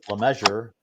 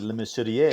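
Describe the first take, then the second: First: The name is said like English 'measure'. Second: The name is said with French pronunciation. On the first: This is the simpler everyday form. "it's easier to say Le Measure, like tape measure" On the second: This is how it would be said in Quebec. "If we're in Quebec, it would be"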